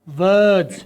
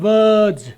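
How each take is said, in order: Both takes have the same delivery.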